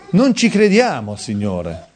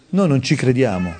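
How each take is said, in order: First: Emphatic outcry. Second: Said in the usual way. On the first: Real, not acted. Preacher confesses the congregation's unbelief to the Lord, emphatic outcry. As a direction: raise it and stretch it out slowly.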